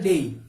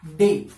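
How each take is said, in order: First: डेई glided e-i, lower; correct version. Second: डे said as a short pure e, marked as wrong; wrong version. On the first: Teacher answers how the word is pronounced. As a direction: model डेई as a diphthong. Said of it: "किस तरीके से इसका pronunciation किया जाता है?". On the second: Teacher shows students the wrong way, then the correct one. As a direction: give the common wrong डे with a plain e. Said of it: "That's not correct pronunciation". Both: Shown as a demonstration.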